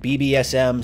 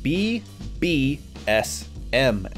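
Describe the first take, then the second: First: The letters are said quickly and loosely. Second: Each letter is said slowly and distinctly.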